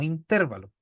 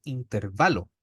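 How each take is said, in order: First: Intervalo with the weight on -TER-; stress on TER in intervalo. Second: Intervalo with the weight on -VA-; stress on VA in intervalo. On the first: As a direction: say in-TÉR-va-lo, stressing the second syllable. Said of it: "no intervalo". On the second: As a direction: say in-ter-VA-lo, stressing the third syllable. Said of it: "cachen cómo yo lo hago en la entonación". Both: Shown as a demonstration.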